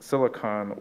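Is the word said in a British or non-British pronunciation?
non-British. It is said in a non-British pronunciation.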